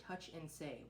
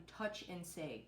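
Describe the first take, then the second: Both takes have the same delivery.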